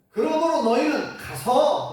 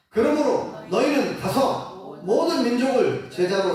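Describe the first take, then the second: First: Slow, higher, stressing 그러므로. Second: Scripture reading. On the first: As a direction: lean on "그러므로 너희는 가서". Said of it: "가라는 거예요". (설교자가 "그러므로"를 힘주어 강조) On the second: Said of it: "십구 절 읽어보겠습니다". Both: Shown as a demonstration.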